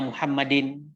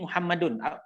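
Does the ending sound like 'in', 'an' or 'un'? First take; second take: in; un. First: The word ends with an 'in' sound. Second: The word ends with an 'un' sound. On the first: The speaker calls it wrong. "Jangan aina Muhammadin" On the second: The speaker calls it right. "tapi Muhammadun"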